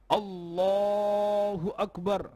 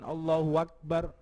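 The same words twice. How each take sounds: First: Allahu joins akbar with no added w sound. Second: A w sound links Allahu to akbar. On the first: The prayer's opening takbir is valid. The speaker calls it right. "kudu dipasno ... Kaya ngoten" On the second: The prayer's opening takbir becomes invalid. The speaker calls it wrong. "menambah wawu yang hidup di antara lafaz Allah dengan akbar ... Mau takbir kaya ngoten"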